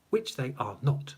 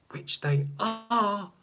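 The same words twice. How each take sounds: First: "are not" set apart at usual pitch; measured emphasis on "are not"; stress on NOT. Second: ARE drawn right out, pitched high; pointed, lingering emphasis on "are"; stress on ARE. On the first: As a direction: state "are not" pointedly, without lifting it. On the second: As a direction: stretch and lift the word are, slowly. Contrasts are with are not. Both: Real, not acted.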